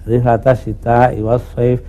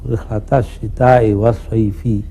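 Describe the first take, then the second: First: The last word ends without a final vowel. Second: The last word ends with a final i vowel. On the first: It observes the stop at the verse end. "Karena ada wakaf ya" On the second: It follows the written text literally. "berpegang pada aturan ini"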